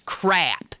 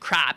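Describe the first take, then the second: First: The vowel sounds like the one in 'cap'. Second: The vowel sounds like the one in 'cop'. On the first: The speaker calls it right. "There ain't no other way to pronounce it. It's crap" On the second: The speaker calls it wrong. "some family members pronounce it crop. Yeah, right"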